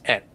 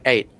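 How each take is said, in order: First: It is said with a British pronunciation. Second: It is said with an American pronunciation. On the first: "in the K, it's like at, like this" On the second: "In the U S, it's pronounced like eight"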